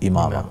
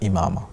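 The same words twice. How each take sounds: The two takes are said the same way.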